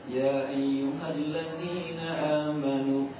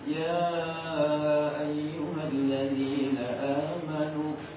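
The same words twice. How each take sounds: First: The vowel of ya is held two beats. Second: The vowel of ya is held four beats. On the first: "Mau dibaca 2 harokat" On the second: "dibaca 4"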